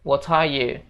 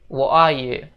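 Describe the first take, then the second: First: The t in 'what' is clearly pronounced. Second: The t in 'what' becomes a glottal stop. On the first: "Jadi T-nya dibaca jelas gitu guys" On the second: "Jadi T itu seolah-olah koma di atas gitu guys"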